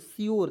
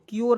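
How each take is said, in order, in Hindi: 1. यह शब्द sh ध्वनि से शुरू होता है। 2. यह शब्द k ध्वनि से शुरू होता है। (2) "क्योर नहीं"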